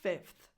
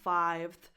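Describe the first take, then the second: First: The vowel is a short 'i' sound. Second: The vowel is a long 'eye' sound. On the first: The speaker calls it right. "it's fifth" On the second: The speaker calls it wrong. "The root of the sound changes from five to fifth. So it's not fifth"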